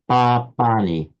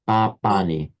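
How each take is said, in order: First: The first syllable keeps its full length. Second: The first syllable keeps its full length.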